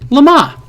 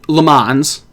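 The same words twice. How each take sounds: First: The final n and s are left silent. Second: The final n and s are clearly pronounced. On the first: The speaker calls it right. "Take the N and the S off and say it without it" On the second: The speaker calls it wrong. "It's not called Le Mans"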